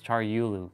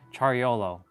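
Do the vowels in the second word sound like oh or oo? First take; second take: oo; oh. First: The second word's vowels sound like oo. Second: The second word's vowels sound like oh. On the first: The speaker calls it right. "But it's Char Yulu" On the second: The speaker calls it wrong. "If you take out the, the U's and put the O's, it's like YOLO"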